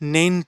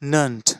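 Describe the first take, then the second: First: The vowel sounds like a clear 'e'. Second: The vowel sounds like a reduced 'a'. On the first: The speaker calls it wrong. "নেন্ট না" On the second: The speaker calls it right.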